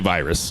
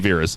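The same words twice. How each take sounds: First: It sounds like the English word virus. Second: It sounds different from the English word virus. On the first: This is how it looks from the spelling. The speaker calls it wrong. "They don't say virus" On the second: This is how the wrestler's own people say it. The speaker calls it right. "they say Virus"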